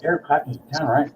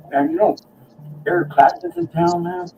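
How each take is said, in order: First: Said in the usual way. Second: Excited tip-off. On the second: Retold or imitated. Telling [name] is in town.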